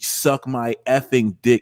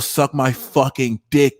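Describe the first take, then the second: First: It is said in the speaker's ordinary voice. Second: It is said in a put-on New York accent.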